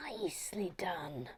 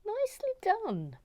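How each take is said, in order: First: Whispered nicely done; hushed whisper of approval. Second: Much higher, sing-song nicely done; high pleased repeat; high praise. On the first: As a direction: breathe it out under the breath. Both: Real, not acted.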